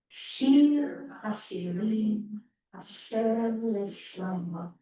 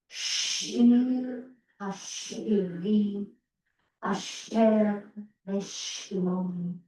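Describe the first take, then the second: First: It is read at a moderate pace. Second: It is read more slowly.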